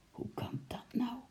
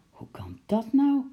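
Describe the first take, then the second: First: Soft whispered disbelief. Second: High, louder amazed question; astonished. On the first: Uncle repeating his question, stunned whisper. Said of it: "zei oom Nijltje weer". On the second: Uncle hearing penguins escaped, loud amazed question. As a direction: ask it in full disbelief. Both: A narrator's reading.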